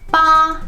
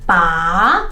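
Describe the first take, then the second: First: The pitch stays high and level. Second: The pitch rises from low to high. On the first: "the first tone ba, ba is flat" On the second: "the second tone is ba, from the bottom to the top"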